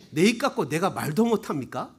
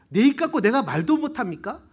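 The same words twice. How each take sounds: First: Lower, held-back imitation of a protest; mild retort. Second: Livelier, raised imitation of a protest; indignant retort. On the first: David answering his scolding brother, lower and mildly protesting. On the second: David protesting to his older brother, retold more indignantly. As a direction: act out talking back with more push.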